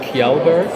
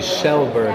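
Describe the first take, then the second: First: The name begins with a 'k' sound. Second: The name begins with a 'sh' sound. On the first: The speaker calls it wrong. "everybody says it's" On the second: The speaker calls it right. "but it's actually"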